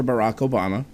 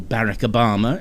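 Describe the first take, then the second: First: Said in the usual way. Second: "Barack Obama" the British way, stress on the first syllable of "Barack"; British pronunciation. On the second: Shown as a demonstration. Host showing how they say it in the UK, British pronunciation of "Barack Obama". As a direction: say "Barack" as BARR-ack, British style. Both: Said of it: "as they say in the U K".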